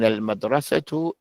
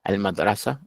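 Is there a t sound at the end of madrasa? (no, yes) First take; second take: yes; no. First: The word ends with a t sound. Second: The word ends without a t sound. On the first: The sentence continues after this word. "But if you're going to continue, you say أين المدرسة للبنات" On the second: The sentence stops at this word. "But if you stop, you say أين المدرسة, it's good to stop"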